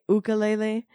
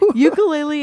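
First: It uses a Hawaiian-style pronunciation. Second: It uses an Americanized English pronunciation. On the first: "the Hawaiian way is to say ukulele" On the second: "the like Americanized way to say it"

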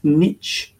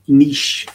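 First: It is said in an American way. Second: It is said in a British way.

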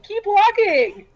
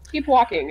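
First: It is said in an encouraging tone. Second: It is said in a depressed tone.

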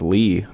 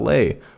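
First: The vowel sounds like the one in 'see'. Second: The vowel sounds like the one in 'say'. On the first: The speaker calls it right. "his name is pronounced Lee" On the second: The speaker calls it wrong. "not Lay, which is how I pronounced it in the last episode"

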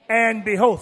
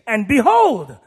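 First: It is read flatly, without surprise. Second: It is read with a tone of surprise.

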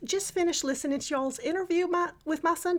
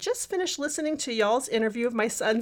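First: It is read in a put-on Texas accent. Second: It is read in the speaker's ordinary accent.

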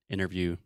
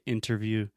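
First: The word is said quickly and reduced. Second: The word is said carefully and fully.

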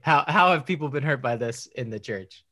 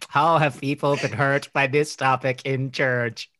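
First: The voice sounds natural and ordinary. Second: The voice sounds robotic and mechanical. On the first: "But seriously" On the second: "here's my robot answer"

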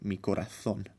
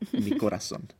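First: The z is lisped like th, Spain style. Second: The z is said like s, Colombian style.

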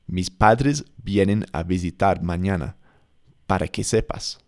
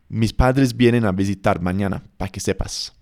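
First: Para is said fully with two syllables. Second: Para is shortened to one syllable.

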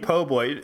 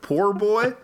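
First: The first word is shortened to 'po'. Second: The first word is said fully as 'poor'. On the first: The speaker calls it wrong. "You mean po' boy" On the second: The speaker calls it right. "I will insist on calling them poor boys"

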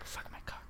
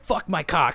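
First: It is muttered quietly under the breath. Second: It is said loudly and harshly.

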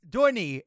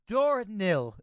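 First: The word ends without an L sound. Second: The word ends with an L sound. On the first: The speaker calls it right. "There's no L in there" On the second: The speaker calls it wrong. "I don't know why I got L. There's no L in there"

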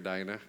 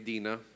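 First: The name has its modern pronunciation. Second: The name has its traditional pronunciation. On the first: This is the present-day way to say the name. "since I live in this age, we can call her Dinah" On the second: This is the older, customary way to say the name. "some say it's traditionally Dinah"

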